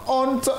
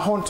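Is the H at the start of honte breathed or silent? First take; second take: silent; breathed. First: The word starts directly on the vowel. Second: The word starts with an audible breathy H. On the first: The speaker calls it right. "le H il ne se prononce pas. On dit tout simplement honte" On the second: The speaker calls it wrong. "souvent les gens disent ah honte"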